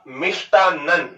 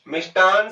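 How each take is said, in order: First: The word ends with a doubled n sound. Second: The word ends with a short n sound. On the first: The speaker calls it right. "शुद्ध शब्द होता है आपका मिष्टानन" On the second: The speaker calls it wrong. "मिष्टान शब्द है वो गलत है"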